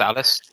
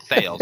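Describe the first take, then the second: First: "Thales" in two syllables, THAH-les; Greek-style pronunciation. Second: "Thales" as one syllable, THAYLZ; host quotes own anglicised slip, "Thales" said THAYLZ; anglicised pronunciation. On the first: Host asking guest how it's pronounced, "Thales" as THAH-les. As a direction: try "Thales" with open AH, then a light -les. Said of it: "Is it pronounced Thales?". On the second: Host checking a Greek name with guest, "Thales" anglicised to THAYLZ. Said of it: "I said Thales. Is it Thales?". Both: Shown as a demonstration.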